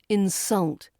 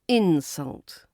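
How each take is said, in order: First: The stress is on the second syllable. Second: The stress is on the first syllable. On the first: It is used as a verb. "But as a verb, it's insult" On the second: It is used as a noun. "as a noun, it's insult"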